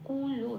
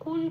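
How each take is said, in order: First: The word ends with a full vowel. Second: The word ends on a bare consonant. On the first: The speaker calls it right. "লকে পূর্ণরূপে উচ্চারণ করতে হবে কুলো" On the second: The speaker calls it wrong. "যেহেতু লয় কোনো হসন্ত নেই তাই কুল বলতে পারবো না"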